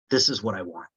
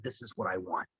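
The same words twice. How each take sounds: First: Said in the usual way. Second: Low, hushed, to himself; quiet inner thought. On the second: Retold or imitated. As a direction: murmur it like a private realization. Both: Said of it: "And I saw that and I said".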